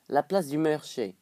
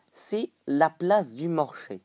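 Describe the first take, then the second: First: "marché" said as "meurché"; botched Québécois vowel in "marché"; odd accented vowel. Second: Drawn-out Québécois vowels, "marché" as "morché"; slow mock-Canadian French; put-on Québécois accent. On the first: Pretend. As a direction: twist the first vowel of "marché" to "eu". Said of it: "Marché, marché, ce que je raconte". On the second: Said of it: "je prends un accent comme ça".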